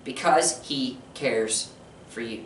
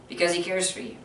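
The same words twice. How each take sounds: First: Slow, soft, fading to near silence; tender hushed reassurance; hushed tender answer. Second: Quiet, gentle restatement; quiet reassuring echo; soft repeat. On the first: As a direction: drop the voice on "for you". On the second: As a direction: say it softly once more. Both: Shown as a demonstration.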